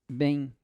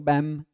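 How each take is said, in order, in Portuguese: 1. A palavra termina com semivogal nasal. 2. A palavra termina com som de M de lábios fechados. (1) "Você fala bem. Bem. Olha que legal" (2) "Isso aqui não é som de M. Então fala bam"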